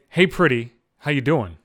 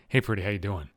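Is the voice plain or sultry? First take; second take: plain; sultry. First: It is said in a plain, ordinary voice. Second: It is said in a low, sultry, seductive voice.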